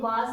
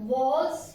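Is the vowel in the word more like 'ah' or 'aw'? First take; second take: ah; aw. First: The vowel is an open unrounded 'ah' sound. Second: The vowel is a rounded 'aw' sound. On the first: The speaker calls it wrong. "ये वाज नहीं होता" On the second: The speaker calls it right. "ऑ की sound देता है"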